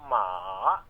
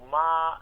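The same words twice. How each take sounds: First: It is said with the third Mandarin tone. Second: It is said with the first Mandarin tone. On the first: "هذه النغمة الثالثة" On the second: "النغمة الأولى"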